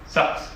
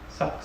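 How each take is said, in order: First: The word is said louder. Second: The word is said quietly.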